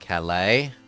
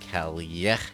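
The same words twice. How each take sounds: First: The double L is sounded like an L. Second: The double L is sounded like a Y. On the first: The speaker calls it wrong. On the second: The speaker calls it right. "When the L sound is doubled, it's a Y sound"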